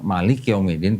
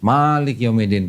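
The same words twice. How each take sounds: First: The first vowel of malik is kept short. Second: The first vowel of malik is drawn out long. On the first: It means the king of the last day. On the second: It means the ruler of the last day.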